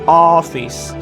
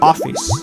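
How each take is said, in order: First: The first vowel is said with an open mouth. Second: The first vowel is said as an o sound. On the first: The speaker calls it right. "When you need to open your mouth like office, like rounded" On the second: The speaker calls it wrong. "if you have been pronouncing these words like an o"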